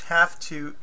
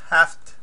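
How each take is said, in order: First: It is said as two clear words. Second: It is run together as one short word.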